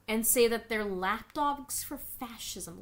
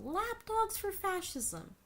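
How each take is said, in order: First: Said in the usual way. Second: Higher, slow mocking echo of lapdogs for fascism; scornful echo of the writer; mocking repeat. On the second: Real, not acted. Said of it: "Do you hear yourself?".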